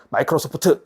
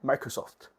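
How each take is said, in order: First: It is read with Korean-English pronunciation. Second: It is read with near-English pronunciation. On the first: The speaker calls it wrong. "콩글리시 하시면 안 되고" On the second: The speaker calls it right. "영어에 가깝게"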